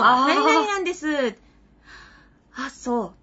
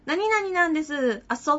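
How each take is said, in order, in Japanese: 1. 返事の前に、短く息をする間がある。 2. 間を置かず、そのまま続けて言う。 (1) "ちょっと一瞬の呼吸があるから" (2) "って言っちゃうときついじゃないですか"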